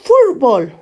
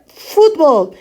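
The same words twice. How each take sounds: First: "Fútbol" said the Spanish way, the t softened toward an r; "Fútbol" as Spaniards say it; Spain pronunciation. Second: "Fútbol" said the Mexican way, with a clear t; "Fútbol" with a crisp t sound, Mexican style; Mexican pronunciation. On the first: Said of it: "en vez de decir". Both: Shown as a demonstration.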